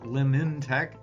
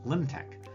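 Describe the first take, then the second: First: The name is said with an N sound. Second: The name is said without an N sound. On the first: The speaker calls it wrong. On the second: The speaker calls it right. "The N is silent"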